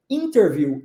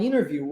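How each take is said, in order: First: "interview" with the T fully sounded; T pronounced. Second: "interview" as "innerview", no T; swallowed T. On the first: Teacher offers the other choice, "interview" with a clear T. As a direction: articulate the T after the N in "interview". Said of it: "ou se você quiser dizer interview". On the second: Teacher offers students a choice, "interview" with the T swallowed. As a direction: drop the T after the N in "interview". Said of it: "Se você quiser falar interview". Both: Shown as a demonstration.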